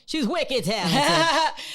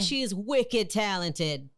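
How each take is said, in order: First: It is said in a Northern American accent. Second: It is said in the speaker's ordinary accent.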